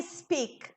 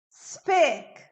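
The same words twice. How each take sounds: First: "speak" mispronounced as is-PEAK; wrong IS before S. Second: "Speak" starting straight on a hissed S; blown S, one syllable. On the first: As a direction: add an extra vowel before "speak", two syllables. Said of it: "Não é speak". ("speak" errado, como "ispik") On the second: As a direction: say "Speak" with no vowel before S. ("Speak" com S soprado, sem "is") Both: Shown as a demonstration.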